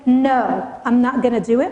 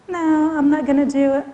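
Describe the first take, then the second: First: It is said in a firm, assertive voice. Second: It is said in a weak, unassertive voice. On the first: The refusal is firm and meant. The speaker calls it right. "with that assertive voice" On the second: The refusal is not convincing. The speaker calls it wrong. "when you say it to yourself, sometimes it sounds like"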